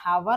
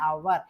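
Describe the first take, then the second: First: The word begins with an h sound. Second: The word begins directly with a vowel. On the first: The speaker calls it wrong. "ഹവർ അല്ല" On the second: The speaker calls it right. "ശരിക്കും ഇതിനെ അവർ എന്നാണ്"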